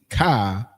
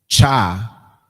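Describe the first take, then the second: First: The syllable starts with a k sound. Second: The syllable starts with a ch sound. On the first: "we're not technically saying ka" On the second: "we're not saying cha"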